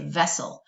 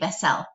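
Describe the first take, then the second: First: The second syllable has a reduced schwa vowel. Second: The second syllable has a full, clear vowel. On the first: The speaker calls it right. "that second syllable kind of has that schwa sound" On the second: The speaker calls it wrong. "We don't say vessel"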